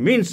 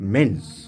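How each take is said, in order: First: The vowel is said like 'min'. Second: The vowel is said like 'men'. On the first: The speaker calls it wrong. "সে উচ্চারণ মিন্স নয়" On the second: The speaker calls it right.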